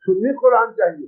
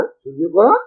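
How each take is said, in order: First: Said in the usual way. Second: Low start, sharp rise on "Quran"; questioning echo. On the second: Retold or imitated. Quoted reply queries the request.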